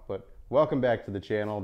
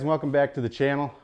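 First: It is said in a calmer, softer way. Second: It is said loudly and aggressively.

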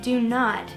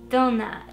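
First: It is said as two separate plain words. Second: It is run together in a Russian accent. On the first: "instead of saying do not" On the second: "If you want to do a Russian accent"

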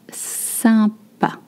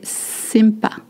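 First: The first vowel is nasal, with no m sounded. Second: The first vowel is oral, with the m sounded. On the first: The speaker calls it right. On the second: The speaker calls it wrong.

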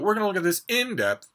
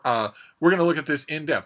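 First: The words come out lively, stressed and natural. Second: The words come out flat, even and robotic. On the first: The speaker calls it right. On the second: The speaker calls it wrong.

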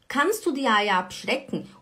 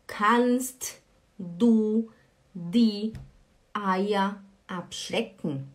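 First: The t before du is dropped and words merge. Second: The t before du is clearly pronounced. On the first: This is how it is said in conversation. "quando você vai falar... O T, ele desaparece" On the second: This is how it is read from text. "Quando você vai ler, você lê"

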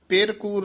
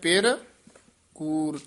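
First: The words run together without a pause. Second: There is a short pause between the words. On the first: The spouse is called false. The speaker calls it wrong. "ਪਿਰ ਕੂਰ ਨਹੀਂ ਕਹਿਣਾ" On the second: The second word describes falsehood, not the spouse. The speaker calls it right. "ਧਿਆਨ ਨਾਲ ਠਮਕ ਲਾਉਣੀ ਹੈ"

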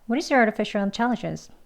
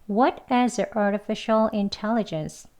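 First: The sentence is spoken at a fast pace. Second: The sentence is spoken at a slow pace. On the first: "빨리도 2번 해볼게요" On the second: "2번 천천히 같이 해볼게요"

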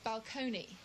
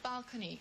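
First: The word has a changed, affected stress pattern. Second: The word has its ordinary stress pattern. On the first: "they used to change the inflections" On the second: "instead of saying balcony"

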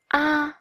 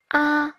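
First: The pitch stays high and level. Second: The same.

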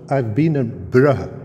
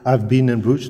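First: Bruges is pronounced the local, dialect way. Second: Bruges is pronounced the standard, non-local way. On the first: The speaker calls it right. "you have to pronounce Bruges" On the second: The speaker calls it wrong. "You don't say"

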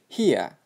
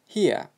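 First: The final r sound is dropped, ending in a vowel. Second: The final r sound is dropped, ending in a vowel.

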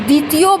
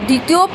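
No difference in how they are said.

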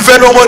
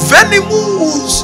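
First: It is said plainly, as a serious warning. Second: It is said tenderly, like an affectionate pet name. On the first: The animal is dangerous. The speaker calls it right. "Instead of saying venomous" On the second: The animal is cute and harmless. The speaker calls it wrong. "he's mentioning it as a sweet name"

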